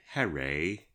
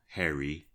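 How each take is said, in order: First: The name is said in an English accent. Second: The name is said in an American accent. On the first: "as the English pronounce it" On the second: "who I'll call Harry"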